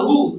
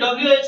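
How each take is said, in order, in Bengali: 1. এটা একটা শব্দ হিসেবে বলা হয়। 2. এটা আলাদা আলাদা অক্ষর করে বলা হয়। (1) "বাট তুমি যদি বলো হু" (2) "এটা যদি বলি ডব্লিউএইচও"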